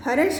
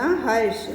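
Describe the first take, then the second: First: "हर्ष" split into "ha-rash"; incorrect form. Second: "हर्ष" as one beat, "harsh", r joined to sh; no vowel after the r in "हर्ष"; correct pronunciation. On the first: Teacher reads out the word to be corrected, incorrect form. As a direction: put a vowel between r and sh in "हर्ष". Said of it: "का शुद्ध शब्द होगा". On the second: Teacher gives students the pure word, correct pronunciation. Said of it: "शुद्ध शब्द होगा हर्ष". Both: Shown as a demonstration.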